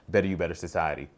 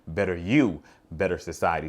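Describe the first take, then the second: First: It is said quickly with little force. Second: It is said slowly with strong force. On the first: The speaker calls it wrong. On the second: The speaker calls it right.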